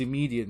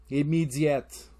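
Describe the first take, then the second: First: Said in the usual way. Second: Slow French-tinged "Immediate"; French-style accent. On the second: Shown as a demonstration. French listener spotting an accent, French-accented "Immediate". Repeats word after accent talk.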